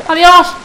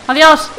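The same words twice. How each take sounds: The two takes are said the same way.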